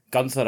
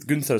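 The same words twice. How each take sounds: First: "Gunther" starting with a plain GUN sound; Scottish-style Gunther. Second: "Gunther" corrected to a rounder first vowel, GOON. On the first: Real, not acted. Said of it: "Or Gun-, Gunther, sorry". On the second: Shown as a demonstration. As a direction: say "Gunther" with an oo sound, GOON-ther.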